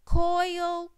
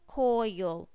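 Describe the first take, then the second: First: Coil said high and bright, rising; word said rising. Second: Coil said low and falling; word said falling. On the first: Teacher models Coil for young readers, high rising. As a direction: sing Coil up high like a question. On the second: Teacher repeats coil for young readers, low falling. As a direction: drop coil down to close it off. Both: Shown as a demonstration. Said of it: "oi, oi".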